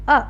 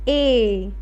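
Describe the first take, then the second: First: The vowel is short, a brief 'a' sound. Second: The vowel is long, like the letter name. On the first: "A letter की sound होती है अ" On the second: "letter है A"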